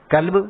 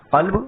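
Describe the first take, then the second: First: کلب with a light front k; plain k sound. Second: قلب with a deep throat qaf; deep Arabic qaf. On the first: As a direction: say کلب with an ordinary k. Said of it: "قلب نہ کہہ کر کے کلب کہہ دیں". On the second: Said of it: "اگر اس قا کو ہم قا نہ پڑھ کے". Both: Shown as a demonstration.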